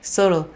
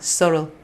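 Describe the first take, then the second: Both takes have the same delivery.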